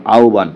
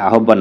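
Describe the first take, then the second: First: আহ্বান with no h and a single b: au-ban; correct pronunciation. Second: The mistaken আহ্বান, h sounded: a-hob-ban; wrong spelling pronunciation. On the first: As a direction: say আহ্বান as "auban", h turned into a u glide. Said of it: "প্রকৃত উচ্চারণ কোনটি". (আহ্বান-কে "আওবান" উচ্চারণ) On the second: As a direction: say আহ্বান as "ahobban", with h and doubled b. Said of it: "এটা আহ্বান না". (আহ্বান-কে ভুল করে "আহোব্বান" উচ্চারণ) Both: Shown as a demonstration.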